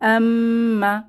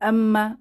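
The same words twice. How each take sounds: First: The word is said slowly and steadily. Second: The word is said quickly and hurriedly. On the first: The speaker calls it right. "একটু ধীর স্থিরতার সাথে" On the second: The speaker calls it wrong. "খুব তাড়াতাড়ি ... এভাবে না বলে"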